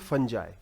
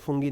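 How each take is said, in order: First: The word ends with an eye sound. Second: The word ends with an ee sound. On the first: The speaker calls it right. "It is called फंजाई" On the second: The speaker calls it wrong. "इसे फंगी और फंगी नहीं बोलते"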